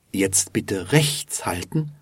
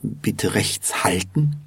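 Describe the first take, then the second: First: Small accent on "rechts"; stress on rechts. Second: Small accent on "halten"; stress on halten. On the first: Teacher shows the other version, stressing "rechts". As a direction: emphasise "rechts" slightly, as in keeping right. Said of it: "hat eine kleine Betonung auf rechts". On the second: Teacher repeats the first version, stressing "halten". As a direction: emphasise "halten" slightly, as in stopping. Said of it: "hat eine kleine Betonung auf halten". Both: Shown as a demonstration.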